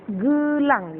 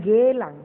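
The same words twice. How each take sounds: First: "Gelang" with a weak schwa e, said slowly and raised; GE-lang with the e reduced to a short uh sound. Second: "gelang" with a full clear e as in "bed"; the wrong version, gelang with an open hard e; hard e wrongly. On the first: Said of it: "e hidup itu kita bacanya lemah". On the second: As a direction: contrast take with a strong e in gelang. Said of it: "bukan gelang". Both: Shown as a demonstration.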